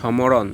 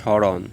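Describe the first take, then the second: First: An m sound is pronounced after the first consonant. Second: No m sound is pronounced after the first consonant. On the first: The speaker calls it wrong. "আমরা কি বলি সমরণ না" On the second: The speaker calls it right. "শব্দের শুরুতে ম ফলা থাকলে ম উচ্চারিত হয় না"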